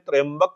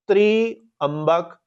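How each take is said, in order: First: The first syllable 'trya' is one joined syllable. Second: 'Tri' and 'ambak' are split into separate syllables. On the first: This is how it is spoken in the mantra. "बोलते समय हमें मंत्र में त्र्यंबक बोलना है" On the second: The word is broken apart to explain its meaning. "मंत्र को खोल रहे हैं तो आपको समझा रहे हैं"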